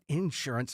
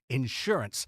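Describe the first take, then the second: First: The word is said with a Texan accent. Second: The word is said with a neutral accent. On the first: This is how people say it back home. The speaker calls it wrong. "it's not insurance" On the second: This is how it is said on the air. The speaker calls it right. "it's insurance"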